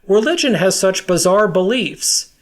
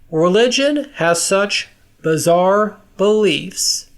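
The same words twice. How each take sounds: First: It is said at normal speed. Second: It is said slowly.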